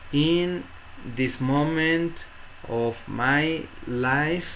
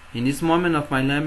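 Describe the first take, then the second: First: The words are separated by pauses. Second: The words run together without pauses. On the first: The speaker calls it wrong. "No voy a decir" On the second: The speaker calls it right. "Vamos a leer de corrido hasta donde hay un punto o una coma"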